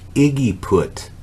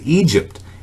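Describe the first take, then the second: First: The word is sounded out as three syllables. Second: The word is said normally as two syllables. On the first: The speaker calls it wrong. "trying to sound it out" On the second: The speaker calls it right. "but it was Egypt"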